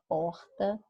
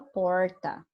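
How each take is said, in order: First: It is said in the speaker's usual accent. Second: It is said in a rural caipira accent. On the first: "a gente fala porta" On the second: "um caipira fala porta"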